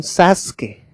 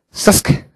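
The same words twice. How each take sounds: First: Sasuke as a fully voiced "SAS-ke"; Latin American mispronunciation. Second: Sasuke whispered short, the U swallowed; clipped Japanese pronunciation. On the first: Teacher showing what everyone heard, non-Japanese pronunciation. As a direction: say Sasuke with a clear first vowel, SAS-ke. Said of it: "un japonés no dice Sasuke". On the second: Teacher showing how Japanese speakers cut the U, clipped pronunciation. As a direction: say Sasuke as a quick, voiceless "s'ske". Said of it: "la cortan, dicen Sasuke". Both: Shown as a demonstration.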